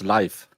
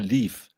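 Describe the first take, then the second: First: The name has the vowel of 'life'. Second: The name has the vowel of 'leaf'. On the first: This is the original Nordic way to say it. The speaker calls it right. "if you're saying it correctly, it's Life" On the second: This is how an American would say it. The speaker calls it wrong. "if you're uh, American, it's probably Leaf"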